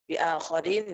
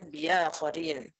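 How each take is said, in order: First: A clear glottal stop follows the first syllable. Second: A y-glide replaces the glottal stop after the first syllable. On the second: "bil ibdal"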